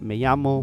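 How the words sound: It is said with a Spain Spanish accent. "So in Spain, they would say"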